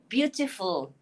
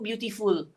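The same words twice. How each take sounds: First: The last syllable has a short vowel, like 'full'. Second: The last syllable has a long 'oo' vowel. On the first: The speaker calls it right. "but it's not. It's beautiful. Full" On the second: The speaker calls it wrong. "We Malaysians say beautiful because you tu kita ingat bunyi u"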